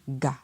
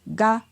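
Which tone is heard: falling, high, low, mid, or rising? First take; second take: low; mid. First: The syllable is said on a low tone. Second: The syllable is said on a mid tone. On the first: "avec un ton bas" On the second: "avec un ton moyen"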